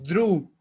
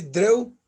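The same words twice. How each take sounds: First: "drew" said as droo, a plain long u; correct drew. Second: "drew" said as dreh-oo, as it looks written; spelling misreading. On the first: Teacher correcting students, drew rhymes with true. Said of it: "como si fuera una U". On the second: Teacher shows students the tempting wrong reading, dreh-oo. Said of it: "parece que dice drew". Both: Shown as a demonstration.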